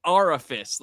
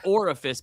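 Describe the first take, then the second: First: "orifice" said as aurifice, first syllable like "aura"; "orifice" with the AUR- spelling sound; spelled-out pronunciation. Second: Said in the usual way. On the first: Shown as a demonstration. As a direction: pronounce "orifice" with an open "aw" start as if spelled A U R I F I C E. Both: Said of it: "like A U R I F I C E".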